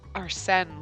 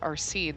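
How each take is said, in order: First: The name is pronounced with a French vowel. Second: The name is pronounced with an anglicized vowel. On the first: The speaker calls it right. "I'm pretty sure it's Arsène" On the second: The speaker calls it wrong. "not Arsene"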